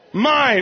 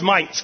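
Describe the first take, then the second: First: The word ends with an N sound. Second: The word ends with a T sound. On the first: "it's the word mine" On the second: "every time she adds a T at the end"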